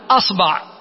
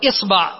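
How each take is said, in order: First: The first vowel is a. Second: The first vowel is i.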